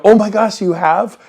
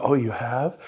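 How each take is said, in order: First: Higher, louder oh my gosh; light up like it's great news; excited surprise. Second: Low, soft, deflated oh you have; bored reaction that kills the call; flat unimpressed reply. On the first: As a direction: coach showing the eager reaction on the phone. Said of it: "You gotta go". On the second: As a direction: let it drop, no interest. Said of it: "some of you will go". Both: Shown as a demonstration.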